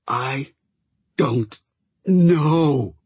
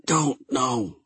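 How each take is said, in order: First: Insistent, higher, last word wheezed out; emphatic wheeze. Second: Hoarse croaked answer; croaking. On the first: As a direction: push it hard till the last word wheezes. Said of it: "so emphatically that the last word came out as a wheeze". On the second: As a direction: croak it out weakly. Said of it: "Chat croaked". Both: Acted.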